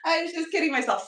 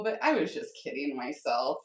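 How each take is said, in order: First: Higher, louder, rueful self-mockery; mock dramatic. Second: Said in the usual way. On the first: Streamer laughing at her snow forecast, mock dramatic. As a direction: ham up the joke at her own expense.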